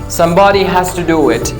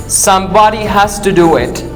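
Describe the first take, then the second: Both takes have the same delivery.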